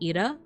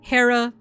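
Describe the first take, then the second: First: The name starts with a vowel, no H. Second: The name starts with an H sound. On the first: This is the likely ancient Greek pronunciation. "In Greek, her name probably would have been pronounced something like Ira" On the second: This is the modern English pronunciation. "if you speak American English"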